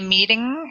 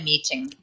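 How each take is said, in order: First: It is said in an American accent. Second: It is said in a non-American accent. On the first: "Americans say meeting" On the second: "I would say meeting"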